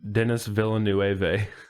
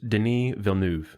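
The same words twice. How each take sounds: First: The name is said with an American pronunciation. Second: The name is said with a French pronunciation. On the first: The speaker calls it wrong. "I thought it was pronounced Denis Villeneuve. because I'm American" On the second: The speaker calls it right. "So it's pronounced Denis Villeneuve"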